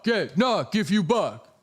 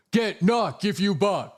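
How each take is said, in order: First: High, slow put-on voice, knock stretched; mock catchphrase. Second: High, slow put-on voice; mock catchphrase. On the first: Streamer repeating his catchphrase in a silly voice. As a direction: say it again in the silly voice. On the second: Streamer chanting his silly catchphrase.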